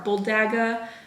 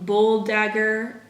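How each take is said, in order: First: The final R sound is dropped. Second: The final R sound is pronounced. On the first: The speaker calls it right. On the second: The speaker calls it wrong.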